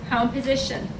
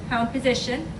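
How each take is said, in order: No difference in how they are said.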